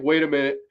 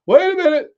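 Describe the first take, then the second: First: Said in the usual way. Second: A hint of a panicked computer, higher and louder. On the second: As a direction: give the frozen computer a voice. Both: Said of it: "my whole computer's like".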